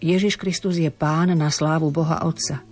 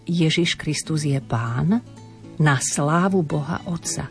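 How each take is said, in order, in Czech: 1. Fráze plyne dál bez pauzy za Pán. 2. Za Pán je pauza.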